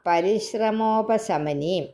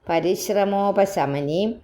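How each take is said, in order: No difference in how they are said.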